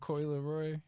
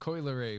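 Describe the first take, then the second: First: The last name ends with a 'roy' sound. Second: The last name ends with a 'ray' sound. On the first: The speaker calls it wrong. "I always want to say Leroy" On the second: The speaker calls it right. "my bad"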